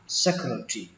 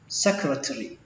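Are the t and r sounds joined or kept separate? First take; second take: joined; separate. First: The t and r sounds are joined together. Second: The t and r sounds are kept separate. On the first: "các bạn nối chữ T này với chữ R luôn thành chữ trì" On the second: "Cách thứ nhất secretary"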